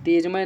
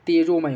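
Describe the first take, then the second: First: It is said as tej-may, without an o. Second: It is said as tejo-may, with an o. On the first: The speaker calls it wrong. "तेजमय नहीं" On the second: The speaker calls it right. "तेजोमय होता है"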